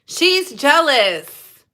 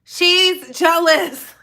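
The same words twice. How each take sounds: First: Slow emphatic. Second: Slow emphatic, a touch higher. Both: Real, not acted. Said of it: "She is jealous".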